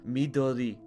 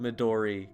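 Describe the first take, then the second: First: The name is said in a Japanese way. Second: The name is said in an English way. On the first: This is closer to the name's original pronunciation. "a more correct pronunciation of the name would be something closer to" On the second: This is the easier pronunciation chosen for the character. "the character's called Midori, because I can say that easier"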